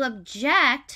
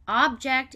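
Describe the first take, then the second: First: The stress is on the second syllable. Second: The stress is on the first syllable. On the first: It is a verb meaning to oppose something. "To object, as the verb" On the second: It is a noun meaning a solid thing. "two pronunciations. Object is a solid thing that you can hold"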